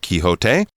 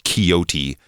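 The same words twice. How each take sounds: First: The name is said in a more Spanish style. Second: The name is said in an English style. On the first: This is the current, more accurate pronunciation. "sort of the middle ground" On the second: This is an older way of saying it. "older versions of the word might be pronounced"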